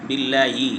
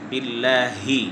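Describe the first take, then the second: First: The h sound weakens into a y sound. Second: The h sound is pronounced clearly. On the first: The speaker calls it wrong. "ই হাটা ইয়া হয়ে যায়" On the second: The speaker calls it right. "হাকে স্পষ্ট করে উচ্চারণ করতে হবে"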